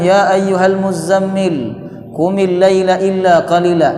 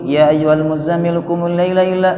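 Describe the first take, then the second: First: It is recited slowly and carefully. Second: It is recited quickly and hurriedly. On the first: The speaker calls it right. "Pasti pelan-pelan" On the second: The speaker calls it wrong. "apakah seperti cepat-cepat begitu?"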